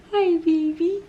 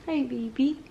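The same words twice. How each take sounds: First: High, sing-song greeting. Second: Quiet, gentle greeting. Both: Real, not acted. Cooing to baby.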